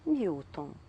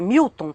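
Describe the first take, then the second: First: It is said in a soft, gentle tone. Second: It is said in a sharp, incisive tone.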